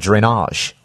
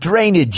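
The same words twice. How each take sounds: First: The word is said with a French accent. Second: The word is said with a New York accent. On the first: "when you speak with a French accent like I can't do, you'd say something like drainage" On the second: "If you're in New York, you work with drainage, yo"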